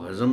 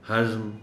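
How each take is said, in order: First: A short a vowel comes between z and m. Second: The z joins the m with no vowel. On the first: The speaker calls it wrong. "हज़्म को हज़म न कहें" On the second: The speaker calls it right.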